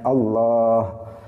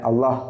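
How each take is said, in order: First: The long vowel is held at full length. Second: The long vowel is cut short. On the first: The speaker calls it right. "Harusnya Allah" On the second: The speaker calls it wrong. "Kadang yang panjang dipendekkan. ... dia baca Allah"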